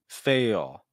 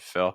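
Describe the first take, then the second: First: The vowel is drawn out like ale. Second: A short i vowel with dark l. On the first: "imitation of a southern accent" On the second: "the quote unquote more standard um, pronunciation"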